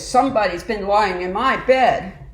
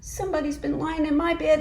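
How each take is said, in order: First: It is said in a big, deep voice. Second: It is said in a tiny, high voice. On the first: A large bear is speaking. "said in his great big voice" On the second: A small bear is speaking. "cried in his little wee voice"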